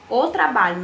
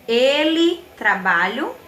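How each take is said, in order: First: "O" emphasised, no questioning lift; corrected version. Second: "Ele" drawn out and louder, "trabalho" left as a question; questioning wrong guess. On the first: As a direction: stress on "O", falling to a statement on "trabalho". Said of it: "não era isso?". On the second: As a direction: offer "Ele trabalho?" slowly, as a doubtful test. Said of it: "Não. O trabalho, não era isso?". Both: Shown as a demonstration.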